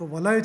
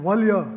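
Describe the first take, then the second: First: A short syllable then one closed long syllable. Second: A closed long syllable then one short syllable. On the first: The speaker calls it right. "લગા" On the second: The speaker calls it wrong. "ગાલ ... એવું ન થઈ શકે"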